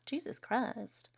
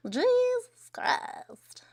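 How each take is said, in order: First: Said in the usual way. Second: Breathless whisper, drawn out very slowly. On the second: Real, not acted. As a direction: let the shock out in a slow whisper.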